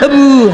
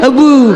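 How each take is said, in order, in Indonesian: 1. Vokal pertama adalah bunyi e. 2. Vokal pertama adalah bunyi e.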